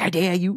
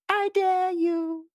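First: It is said aggressively, like a challenge to fight. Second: It is said flirtatiously, in a teasing, sexy way.

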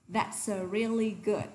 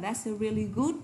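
First: The word good is said lightly and softly. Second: The word good is said heavily and hard. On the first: The speaker calls it right. "Nhẹ nhàng thôi nhá" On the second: The speaker calls it wrong. "Chứ mà that's a really good đúng không?"

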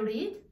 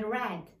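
First: The word is said like 'reed'. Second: The word is said like 'red'. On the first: The action happens now or habitually. "Present I read a book" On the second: The action happened in the past. "I read like the color red"

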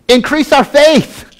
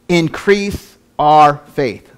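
First: It is said forcefully, as an exclamation. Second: It is said calmly, without exclamation. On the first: The speaker calls it right. "because there's an exclamation point" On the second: The speaker calls it wrong. "I didn't say that right"

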